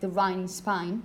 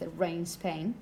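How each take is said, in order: First: The vowel in 'rain' sounds like 'eye'. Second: The vowel in 'rain' sounds like 'ay'.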